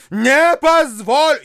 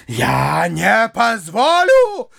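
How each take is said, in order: First: High, loud, slow refusal; louder repeated refusal. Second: Slow indignant refusal. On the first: Widow refusing to let the bride go, loud and high. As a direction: hammer the refusal home. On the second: Repeated refusal. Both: A narrator's reading.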